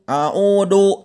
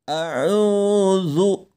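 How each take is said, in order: First: The middle consonant is a plain d sound. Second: The middle consonant is a voiced th sound. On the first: The speaker calls it wrong. "bukan a'udu, a'udu, a'udu billah. Nah, kurang tepat" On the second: The speaker calls it right. "Yang tepat adalah a'udzu"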